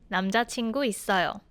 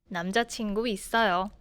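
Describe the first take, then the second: No difference in how they are said.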